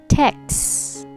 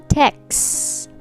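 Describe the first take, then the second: The two takes are said the same way.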